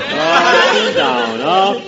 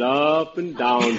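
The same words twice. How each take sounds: First: Slow sing-song, voice swooping up and down; imitating up and down talk. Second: Said in the usual way. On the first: Shown as a demonstration. Mimicking Roger Price's sing-song voice for the panel. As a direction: roll "Up and down, up" like a roller coaster, slow and sung. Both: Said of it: "with that up and down talk".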